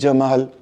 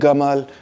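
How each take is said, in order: First: The name begins with a J sound. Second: The name begins with a hard G sound. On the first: This is how the speaker's own community says it. "वी से जमाल" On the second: This is the Egyptian Arabic pronunciation. "Egyptian से गमाल"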